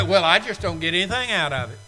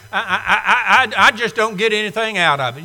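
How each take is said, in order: First: Lightly mimicked grumble, a bit fast; a hint of a whiny churchgoer; mock complaint. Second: Hammed-up stutter, then rushed and fast; mock churchgoer stammering out the excuse; stammering mock whine. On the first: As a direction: imitate a bored churchgoer's excuse. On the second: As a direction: mimic the excuse-maker tripping over the words. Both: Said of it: "weary of hearing people say".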